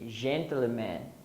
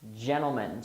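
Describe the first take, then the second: First: It is said the way Brazilian learners say it. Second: It is said with a native English pronunciation. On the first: The speaker calls it wrong. "many Brazilians say gentleman or something like that" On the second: The speaker calls it right. "the pronunciation is gentlemen"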